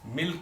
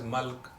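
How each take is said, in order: First: The vowel sounds like 'ih', as in 'bit'. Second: The vowel sounds like 'uh', as in 'but'.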